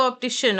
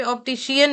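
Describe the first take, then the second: First: ऑप्टिशियन squeezed to "op-ti-shun"; correct pronunciation. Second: ऑप्टिशियन drawn into "op-ti-shi-yan"; mistaken pronunciation. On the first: Teacher giving students the right form, correct pronunciation. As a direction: say ऑप्टिशियन with a single final "shun" syllable. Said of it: "ऑप्टिशियन होगा". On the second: Teacher showing what it will not be, mistaken pronunciation. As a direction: say ऑप्टिशियन with an extra i before the final "an". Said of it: "ऑप्टिशियन नहीं होगा". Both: Shown as a demonstration.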